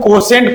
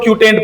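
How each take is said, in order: First: The word begins with a 'ko' sound. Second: The word begins with a 'kyu' sound. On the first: "कुछ लोग कोसेंट पढ़ते हैं" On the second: "कुछ लोग क्यूटेंट पढ़ते हैं"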